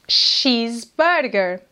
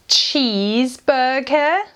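First: The word begins with an 'sh' sound. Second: The word begins with a 'ch' sound. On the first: The speaker calls it right. "Este CH em português é lido como sh" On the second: The speaker calls it wrong. "Nós não dizemos cheeseburger"

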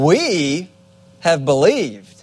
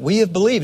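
First: The word 'we' is strongly emphasized. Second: The word 'we' carries no special emphasis. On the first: It proudly sets the speakers apart from those leaving. The speaker calls it right. "It would have been, ... Kind of in a condescending way" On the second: It simply states that they have believed. The speaker calls it wrong. "So it wouldn't have been"

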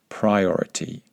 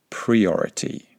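First: The first vowel is an 'eye' sound. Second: The first vowel is a different vowel. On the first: The speaker calls it right. "Make sure that you pronounce that first I vowel correctly" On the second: The speaker calls it wrong.

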